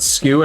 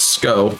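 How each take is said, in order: First: The first syllable rhymes with 'few'. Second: The first syllable rhymes with 'go'. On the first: The speaker calls it wrong. "I've heard a lot of people pronounce it skew" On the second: The speaker calls it right. "it's it's it's Sco"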